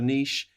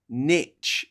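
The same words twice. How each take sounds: First: The word is said with a French pronunciation. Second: The word is said with an American pronunciation. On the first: The speaker calls it right. "instead of niche. It's a French word" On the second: The speaker calls it wrong. "when Americans say the word niche"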